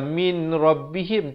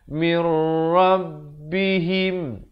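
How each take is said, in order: First: The n is pronounced clearly before the r. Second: The n merges into the r without nasalization. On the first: The speaker calls it wrong. "jangan baca min rabbihim" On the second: The speaker calls it right. "baca mir, terus masuk tanpa didengungkan"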